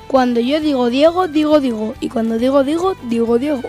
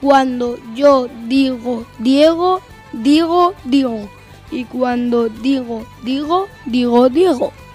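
First: It is said at a normal speed. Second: It is said at a slow speed.

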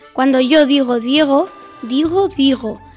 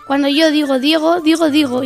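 First: It is said at a slow speed. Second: It is said at a medium speed.

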